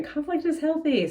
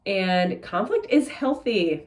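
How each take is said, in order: First: Conflict is healthy, pitched much higher with IS stressed; high emphatic repeat. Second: And conflict IS healthy, slow, leaning on IS; slow it down and lean hard on IS in "conflict is healthy"; stress on is. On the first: Reader repeating her message to viewers, high and emphatic. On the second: Tarot reader insisting to viewers, slow stress on IS. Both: Shown as a demonstration. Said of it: "That's what I'm hearing".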